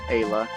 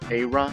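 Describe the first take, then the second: First: The name has an L sound in the middle. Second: The name has an R sound in the middle. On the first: "I would go with Ayla" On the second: "in the original Japanese ... an alternate romanization anyway would be E I R A"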